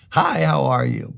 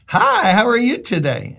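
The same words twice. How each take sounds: First: Said in the usual way. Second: Bright, higher friendly hello, lightly voiced; a touch of a sunny shopper greeting a stranger; cheery stranger's greeting. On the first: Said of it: "smile and go". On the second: Shopper in Kroger greeting the pastor, cheery and higher. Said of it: "she just looks at me and goes".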